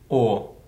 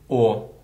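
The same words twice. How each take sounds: No difference in how they are said.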